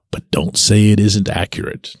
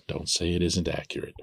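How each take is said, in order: First: Said in the usual way. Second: Much softer, under the breath; quiet repeat. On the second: Real, not acted. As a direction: repeat it as a hushed aside. Repeats own remark under his breath.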